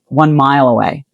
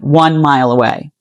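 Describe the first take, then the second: First: The word mile carries the stress. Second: The word one carries the stress. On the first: This is how an Australian says it. "They emphasize the word mile" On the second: This is how an American says it. "You emphasize one"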